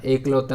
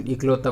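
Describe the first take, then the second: First: एकलौता starting on a long e; incorrect form. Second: इकलौता starting on a short i; correct form. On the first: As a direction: open with ek in एकलौता. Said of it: "नहीं होता". (गलत रूप एकलौता, 'ए' से शुरू) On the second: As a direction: open with ik in इकलौता. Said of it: "बनता है". (सही रूप इकलौता, छोटी 'इ' से शुरू) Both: Shown as a demonstration.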